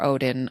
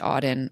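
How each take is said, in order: First: The first syllable sounds like 'oh'. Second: The first syllable sounds like 'aw'. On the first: "You said Odin" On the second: "I've always said Auden"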